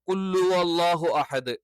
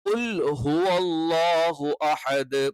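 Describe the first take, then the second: First: The h is dropped, merging into 'qullu'. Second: The h after 'qul' is clearly pronounced. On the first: The speaker calls it wrong. "അതെല്ലാം തെറ്റാണ്" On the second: The speaker calls it right. "ശരിയായിട്ടുള്ള പാരായണം"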